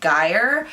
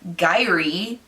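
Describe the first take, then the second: First: The name ends with an 'air' sound. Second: The name ends with a clear 'ee' sound. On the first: "I think it's more of like an air" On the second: "I would pronounce it Gyrie because it's my name with a G instead of an A"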